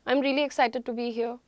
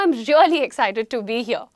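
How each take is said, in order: First: It is said in a flat, lifeless voice. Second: It is said with lively, varied pitch.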